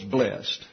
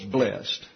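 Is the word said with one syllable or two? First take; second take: one; one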